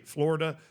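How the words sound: It is said with an American pronunciation. This is how locals of the state say it. "I'm from Florida. That's the way I say Florida"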